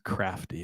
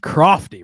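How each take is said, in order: First: The first vowel sounds like the vowel in 'cat'. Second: The first vowel sounds like the vowel in 'cot'. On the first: The speaker calls it wrong. "The most egregious mispronunciation there was crafty" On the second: The speaker calls it right. "It's crofty"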